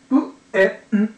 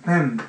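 First: Each sound is said separately with pauses between. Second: The sounds are blended smoothly into one word. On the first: "そのまま言うと、ぷ、え、んになるわけですね" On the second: "ペン、ペン、ペンっていうふうな形になるらしいんです"

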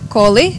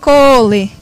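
First: The first vowel is short. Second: The first vowel is extra long. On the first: It means junk. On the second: It means to school. "super long"

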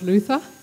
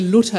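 First: The middle consonant is a th sound. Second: The middle consonant is a plain t sound. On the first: This is the English pronunciation. The speaker calls it wrong. "and not Luther, because the H after the T in German, it has no meaning" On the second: This is the German pronunciation. The speaker calls it right. "I'm going to say Luther"

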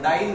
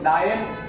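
First: It sounds like the English word dyne. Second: It sounds like the Hindi word daayan. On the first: It names the unit of force. The speaker calls it right. "डाइन बोलो" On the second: It sounds like the word for a witch. The speaker calls it wrong. "तो डाइन मत बोलो"

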